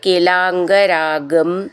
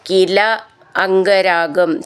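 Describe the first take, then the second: First: The two words are run together as one. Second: The two words are said as separate words.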